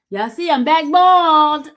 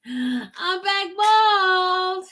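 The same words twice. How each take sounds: First: Loud, higher, proud reveal; excited announcement. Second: Very high, very slow and stretched; drawn-out sing-song. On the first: Proudly showing new bald head. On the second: Repeats the reveal, drawn out. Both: Real, not acted.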